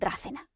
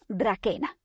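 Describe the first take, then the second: First: The middle c is a soft, hissing sound. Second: The middle c is a hard k sound. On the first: This is how English speakers say the name. The speaker calls it wrong. "como hacen los ingleses" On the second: This keeps the link to the Greek word for dragon. The speaker calls it right. "o lo voy a pronunciar así o a malas"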